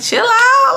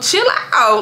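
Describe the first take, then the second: First: It is said in a sweet, cutesy way. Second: It is said in a plain, blunt way. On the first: "I'm like saying it in like a cutesy way" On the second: "But I'm not saying it like that"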